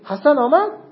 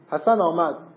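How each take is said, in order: First: It is said with a questioning tune. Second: It is said with a surprised exclamation tune. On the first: The speaker is asking whether Hassan came. "سوال میذارید" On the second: The speaker is surprised that Hassan came. "تعجبیه"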